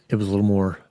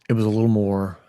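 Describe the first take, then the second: Both takes have the same delivery.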